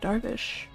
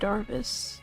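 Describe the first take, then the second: First: The name ends with a sh sound. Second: The name ends with an s sound. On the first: "it could be pronounced like Darvish" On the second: "With a silent H"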